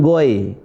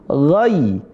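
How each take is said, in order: First: The vowel glides from 'o' to 'i'. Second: The vowel glides from 'a' to 'i'. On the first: The speaker calls it wrong. "bukan goy" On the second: The speaker calls it right. "pakai i"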